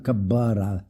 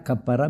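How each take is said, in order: First: The middle consonant is a b sound. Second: The middle consonant is a p sound. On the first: "mais Kabbara" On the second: "ils disaient pas Kappara"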